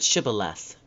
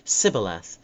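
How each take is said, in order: First: The word begins with a sh sound. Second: The word begins with an s sound. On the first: The speaker calls it right. "S H" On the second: The speaker calls it wrong. "Instead, they would say S"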